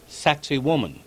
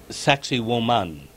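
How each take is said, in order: First: It sounds like the English words sexy woman. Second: It is said with native Quechua-like sounds. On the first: This is the popular nickname. "called Sexy Woman" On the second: This is the real name. "the actual pronunciation is Sexy Woman"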